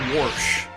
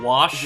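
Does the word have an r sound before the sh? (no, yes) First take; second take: yes; no. First: An r sound comes before the sh. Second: No r sound comes before the sh. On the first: This is how many people in the area say it. "Warsh, like W A R S H" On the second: This is how the speaker personally says it. "Like instead of"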